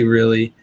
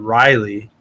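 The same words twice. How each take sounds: First: "really" said RILL-ee; "really", ending in an EE sound; own pronunciation. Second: "Riley" said RYE-lee; "Riley", rhyming with highly; another's pronunciation. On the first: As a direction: say "really" with stress on the first syllable. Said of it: "I say really". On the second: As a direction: say "Riley" with a long eye vowel first. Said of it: "L R Betts Aquatics pronounces it". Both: Shown as a demonstration.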